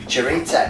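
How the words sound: It is said with an Australian accent.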